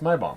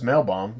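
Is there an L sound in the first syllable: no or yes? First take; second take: no; yes. First: The first syllable has no L sound. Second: The first syllable has an L sound. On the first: The speaker calls it right. "if you take away the L, it's My Bomb" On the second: The speaker calls it wrong. "it's Mail Bomb if there was an L"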